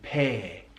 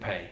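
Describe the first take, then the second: First: The vowel is long and drawn out. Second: The vowel is short and plain. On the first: "he elongates the diphthong A" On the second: "rather than"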